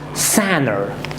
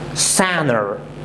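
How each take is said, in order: No difference in how they are said.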